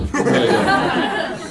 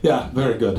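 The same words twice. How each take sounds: First: Drawn-out very slow dad approval; imitating dad. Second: Imitating dad. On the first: Son imitates his father's slow approving reply. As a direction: stretch it slowly like a bemused dad. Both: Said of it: "our father, who always responds".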